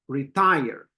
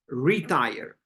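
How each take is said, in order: First: The stress is on the second syllable. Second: The stress is on the first syllable. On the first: The speaker calls it right. "That's a stress on the second one" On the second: The speaker calls it wrong. "That's a stress on the first one"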